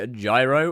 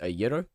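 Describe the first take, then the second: First: Gyro is said the usual English way. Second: Gyro is said the way Greeks say it.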